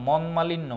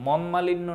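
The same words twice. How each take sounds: No difference in how they are said.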